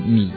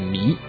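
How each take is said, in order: First: The syllable is said with a low dipping tone. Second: The syllable is said with a rising tone. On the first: It means falling with the wind, or beautiful. "它的注音念的是米" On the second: It means to waste. "就是我们平常发音发的迷"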